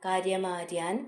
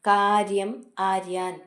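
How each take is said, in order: First: The two words are run together. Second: The two words are said separately.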